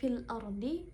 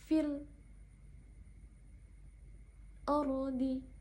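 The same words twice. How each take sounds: First: It is said smoothly without any stop. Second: It has a brief breathless stop before ardi. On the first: "seperti biasa membacanya" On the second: "berhenti sakat di sana pada al-ta'rif"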